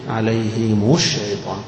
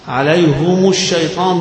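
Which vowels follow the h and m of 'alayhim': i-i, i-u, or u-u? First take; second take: i-u; u-u. First: The h takes i and the m takes u. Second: Both the h and the m take a u vowel. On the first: "عليهم مكسورة واللي بعدها مضمومة" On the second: "ضمتين"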